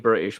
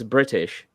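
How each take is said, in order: First: The T in the middle is dropped. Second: The T in the middle is clearly pronounced. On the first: This is the speaker's natural regional way. "that's as a result of my own regional accent" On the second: This sounds posh to the speaker. "I think I sound like a posh twat"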